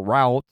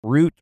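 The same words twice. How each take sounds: First: "route" said to rhyme with "out"; ROUTE rhyming with out. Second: "route" said like "root". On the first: Host repeating both ways to say it, "route" as rowt. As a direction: give "route" an OW vowel. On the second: Host repeating both ways to say it, "route" as root. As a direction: give "route" a long OO vowel. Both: Shown as a demonstration. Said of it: "whatever way you say it".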